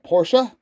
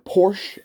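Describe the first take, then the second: First: Porsche is said in a non-American way. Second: Porsche is said the American way.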